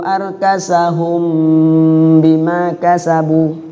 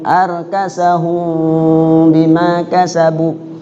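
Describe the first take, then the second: First: The lips close fully on the m. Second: The lips stay slightly open on the m. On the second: "Satu rambut nggak rapat"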